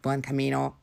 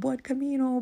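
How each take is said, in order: First: The greeting sounds irritated and annoyed. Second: The greeting sounds happy and cheerful. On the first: The greeter is fed up with the greetings. "Und ich total genervt" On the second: The greeter is glad to meet the walker. "die haben sich total gefreut"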